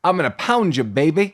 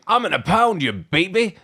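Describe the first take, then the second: First: Put-on baby talk. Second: Put-on higher teasing baby talk. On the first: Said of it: "a lot of baby talk". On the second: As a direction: coo it like talking to a baby. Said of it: "He's like".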